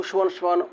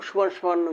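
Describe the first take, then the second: The two takes are said the same way.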